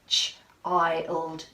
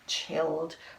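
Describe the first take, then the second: First: The vowel is a long 'eye' sound. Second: The vowel is a short 'ih' sound. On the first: The speaker calls it right. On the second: The speaker calls it wrong.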